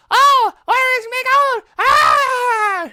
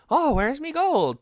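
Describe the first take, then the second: First: Ear-splitting high shriek of a leprechaun imitation; mock leprechaun scream, far higher and louder; super high-pitched, annoying leprechaun. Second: High, slow Irish leprechaun voice; put-on Irish leprechaun, loud and high; Irish leprechaun imitation. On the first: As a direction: screech it slowly at the very top. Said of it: "super high-pitched and annoying". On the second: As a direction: sing out in a pitched-up Irish lilt. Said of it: "trying to do a leprechaun imitation".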